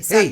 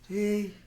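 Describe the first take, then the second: First: The word is said at a loud volume. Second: The word is said at a soft volume. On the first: The speaker calls it right. "lo hacemos con voz fuerte, con voz potente" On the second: The speaker calls it wrong. "No vamos a decir"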